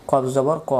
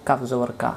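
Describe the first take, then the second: First: Heavy back-of-mouth q in "কফ জবর ক"; correct heavy qaf. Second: "কাফ জবর কা" with a light k and open "a"; common mistaken kaf. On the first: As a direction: say "কফ জবর ক" as "qof jobor qo", not "kaf". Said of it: "এই অক্ষরটা আমরা ভুল করে ফেলতাম". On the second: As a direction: say "কাফ জবর কা" offhand, "kaf jobor ka" instead of "qof". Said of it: "আমরা বলি". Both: Shown as a demonstration.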